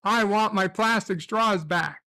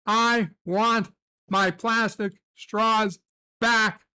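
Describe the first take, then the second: First: Said in the usual way. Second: "I want my plastic straws back" drawn out, word by word; slow, insistent complaint; slow and deliberate. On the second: Shown as a demonstration. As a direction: spell it out slowly like a demand.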